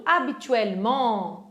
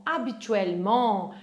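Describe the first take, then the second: First: Habituellement said slowly, syllable by syllable; model pronunciation. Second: Habituellement repeated lower with a falling close; repeat pronunciation. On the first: Teacher models habituellement slowly for the class. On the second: Teacher repeats habituellement for students to copy. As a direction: say habituellement once more as a settled repeat. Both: Shown as a demonstration. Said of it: "que eles usam muito".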